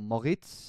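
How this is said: The name is said with a German pronunciation.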